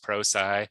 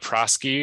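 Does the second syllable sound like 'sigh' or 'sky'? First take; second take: sigh; sky. First: The second syllable sounds like sigh. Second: The second syllable sounds like sky. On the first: The speaker calls it right. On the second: The speaker calls it wrong.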